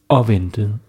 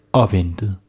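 No difference in how they are said.

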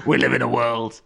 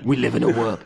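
First: Lightly voiced gruff manager; a hint of a football manager's growl; Sean Dyche voice. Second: A light take on the trailer narrator, dramatic; solemn trailer announcer, lightly done; movie trailer voiceover. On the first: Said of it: "That'd be Sean Dyche". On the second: Retold or imitated. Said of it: "a, a movie trailer voiceover".

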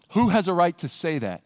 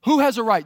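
First: Said in the usual way. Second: Higher and louder, stress on Who; insistent repeated question; emphatic repeat. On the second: Shown as a demonstration. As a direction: punch the word Who as a challenge.

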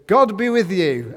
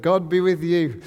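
First: Loud, higher, proclaiming it like a boss entering; boss's loud blessing. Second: Loud group-style answer in a changed voice; staff chorus reply. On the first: Boss greets the staff, loud proclaiming blessing. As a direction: call the blessing out across the office. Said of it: "your boss walks in and goes". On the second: Coworkers answer the boss, loud chorus reply. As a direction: answer back like the whole room at once. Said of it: "everybody stands up and goes in". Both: Pretend.

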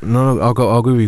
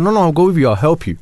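First: Said in the usual way. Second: Urgent reassurance. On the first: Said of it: "I was like". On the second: Retold or imitated. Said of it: "I said".

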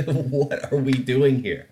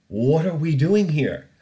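First: Slow, laughing through "What are we doing here?". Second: Louder, slower, stress on "doing"; exasperated. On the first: Host giving up on the news, laughing. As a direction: laugh out the question in disbelief. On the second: Host despairing at Chernobyl vodka imports, exasperated. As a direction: throw "What are we doing here?" out in disbelief. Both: Real, not acted. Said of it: "repeated laughing".

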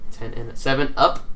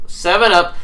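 First: Said in the usual way. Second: Higher, louder punchline; excited pun callout. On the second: Shown as a demonstration. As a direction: sell the pun.

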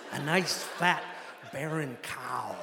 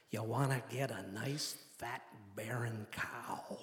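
First: Midwestern pilot, punched "fat", slow dropping "barren cow"; imitated Midwestern accent. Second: Low, hushed Midwestern drawl, very slow on the last words; imitated Midwestern accent. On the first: Pilot repeats his hunting advice, emphatic Midwestern accent. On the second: Pilot advises hunter in plane, slow Midwestern accent. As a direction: stretch out "fat, barren cow" like a Midwestern pilot. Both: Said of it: "exaggerated Midwestern accent".

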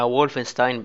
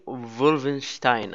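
First: وولفنستاين said the American way, with an English W sound; American pronunciation. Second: وولفنشتاين said the German way, with a V-like W and a "sh" before the T; German pronunciation. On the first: Explaining to co-host how Americans say it, in an American pronunciation. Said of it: "طلع نطقها وولفنستاين بالأمريكي". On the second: Laughing, showing the co-host the German version of the name. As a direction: say وولفنشتاين like a German, with a soft chuckle. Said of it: "وبالألماني وولفنشتاين". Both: Shown as a demonstration.

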